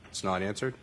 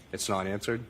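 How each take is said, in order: Both takes have the same delivery.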